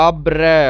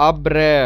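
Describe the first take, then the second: Both takes have the same delivery.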